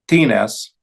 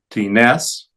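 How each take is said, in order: First: "tines" as TI-nes, falling; stress on first syllable. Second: "tines" as ti-NES, rising; stress on last syllable. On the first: Teacher reciting interrogative forms, TI-nes stressed up front. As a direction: hit the TI of "tines", let nes drop. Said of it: "la primera sílaba". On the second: Teacher showing the accented ending, ti-NES stressed last. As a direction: push the weight onto NES in "tines". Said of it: "en la última sílaba". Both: Shown as a demonstration.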